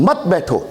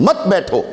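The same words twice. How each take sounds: Both takes have the same delivery.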